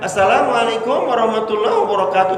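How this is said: It is said in a shrill, tinny voice.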